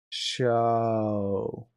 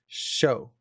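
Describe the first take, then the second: First: The word is slow and blurred together. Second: The word is held, then the vowel hits sharply. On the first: The speaker calls it wrong. "they'll make it very muddy, where it'll be show" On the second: The speaker calls it right. "we hold in consonants and then hit vowels"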